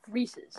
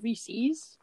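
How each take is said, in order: First: "Reese's" as REE-siz, short final vowel; own pronunciation. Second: "Reese's" as REE-seez, long ee ending; rival pronunciation. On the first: Explaining the class argument, own way REE-siz. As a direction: end "Reese's" on a quick -iz. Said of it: "I th-, pronounce it". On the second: Explaining the class argument, the other camp's REE-seez. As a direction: say "Reese's" with a drawn -eez at the end. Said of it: "the people that pronounce it". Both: Shown as a demonstration.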